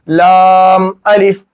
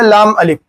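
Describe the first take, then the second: First: The vowel in laam is drawn out long. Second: The vowel in laam is short. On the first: The speaker calls it right. "लाम को ज्यादा खींचेंगे" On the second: The speaker calls it wrong. "ऐसा नहीं कहेंगे"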